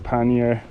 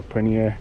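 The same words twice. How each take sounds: First: "pannier" said as PAN-yer; first syllable of "pannier" rhymes with can; PAN-yer pronunciation. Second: "pannier" said as puh-NEER; pronounced like paneer. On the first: Cyclist offering one way to say the bag's name, "pannier" as PAN-yer. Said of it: "I think you pronounce it like that". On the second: Cyclist trying another way to say the bag's name, "pannier" as puh-NEER. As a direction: say "pannier" like paneer, the Indian cheese. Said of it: "it's not the Indian cheese". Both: Shown as a demonstration.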